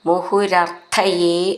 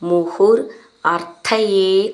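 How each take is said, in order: First: The words are run together without breaks. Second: The words are said separately, one by one.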